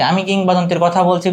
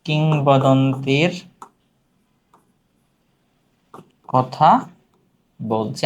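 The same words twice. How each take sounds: First: Said in the usual way. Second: Slow, drawn-out words with long pauses; word-by-word dictation. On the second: Shown as a demonstration. (থেমে থেমে, টেনে টেনে বলা)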